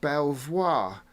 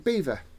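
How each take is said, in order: First: It is said as spelled, like bel-voir. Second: It is said with two syllables, like beaver. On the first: The speaker calls it wrong. "if you were to pronounce it how it is spelt" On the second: The speaker calls it right. "but it's actually Beaver"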